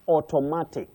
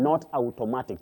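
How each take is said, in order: First: The first vowel is a long 'o' sound. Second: The first vowel is an 'ow' sound. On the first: The speaker calls it right. "combine to form the long sound O" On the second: The speaker calls it wrong. "That ow is not there"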